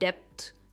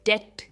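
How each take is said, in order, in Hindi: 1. 't' से पहले 'b' जैसी आवाज़ सुनाई देती है। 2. 't' से पहले कोई 'b' की आवाज़ नहीं सुनाई देती। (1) "एंड नॉट डेप्थ" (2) "इसमें बी साइलेंट है"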